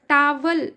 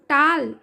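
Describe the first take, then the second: First: The word is said with two syllables. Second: The word is said with one syllable. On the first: The speaker calls it wrong. "ये गलत pronunciation है" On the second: The speaker calls it right. "ये सही pronunciation है"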